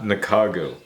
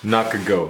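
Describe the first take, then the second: First: It is said with a westernized English pronunciation. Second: It is said with a Japanese pronunciation. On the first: The speaker calls it wrong. "Nakago is the westernized speaking of this" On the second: The speaker calls it right. "the tang in Japan is called Nakago"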